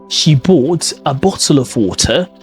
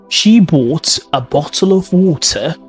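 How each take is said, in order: First: The T sounds are clearly pronounced. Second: The same.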